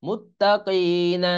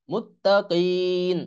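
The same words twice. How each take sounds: First: Slow "মুত্তাকিনা" with final na voiced; continued reading ending. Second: "মুত্তাকিন" with long ee, closed on n; stopping pronunciation. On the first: Teacher reading it through, full na ending on "মুত্তাকিনা". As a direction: sound the last vowel of "মুত্তাকিনা". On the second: Teacher showing the stop, long held "মুত্তাকিন" ending on n. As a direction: draw out "মুত্তাকিন" and drop the final vowel. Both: Shown as a demonstration. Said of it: "এখানে থামবো এরকম".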